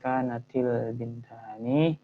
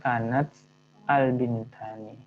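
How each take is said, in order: First: Kanat links to bintani with an i sound. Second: Kanat ends in a bare t before al. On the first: The speaker calls it right. "yang pertama itu dikasrahkan" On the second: The speaker calls it wrong. "karena ada dua sukun di situ kan nggak mungkin dibaca dua sukun"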